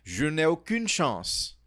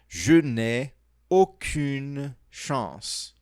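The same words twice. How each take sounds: First: The phrase is said at a faster pace. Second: The phrase is said at a slower pace.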